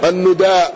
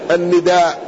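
First: The first syllable has a u vowel. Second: The first syllable has an i vowel. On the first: "ويقال أيضا بضمها" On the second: "بكسر النون"

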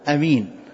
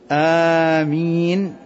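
First: The first vowel is short, with a single m. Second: The first vowel is long, with a single m. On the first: "والقصر أمين، يعني بدون مد" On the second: "آمين بمد الهمزة الألف"

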